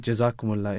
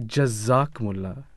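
First: The z sound is said lightly, without emphasis. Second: The z sound is said with heavy emphasis. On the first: A wish that God reward the listener. The speaker calls it right. "it means may Allah reward you" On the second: A wish that God cut the listener. The speaker calls it wrong. "when you put emphasis on the z"

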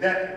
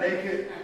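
First: The word is said in a Southern pronunciation. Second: The word is said in a standard pronunciation. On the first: "in the Southern vernacular" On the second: "It's not naked"

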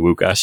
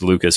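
First: The name begins with a W sound. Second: The name begins with an L sound. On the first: "it's weird for me to just say Wukasz out loud" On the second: "the voice in my head was always just Lucas"

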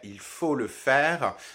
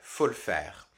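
First: The opening "il" is pronounced in full. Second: The opening "il" is dropped entirely. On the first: This is the standard form. "en version standard" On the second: This is the informal spoken form. "en version orale"

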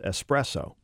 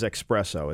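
First: The word is said without an x sound. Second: The word is said with an x sound. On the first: The speaker calls it right. "It's just espresso. There's no X" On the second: The speaker calls it wrong. "There's no such thing as espresso"

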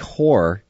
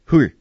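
First: The word is said at normal length. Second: The word is clipped very short, like the dad.

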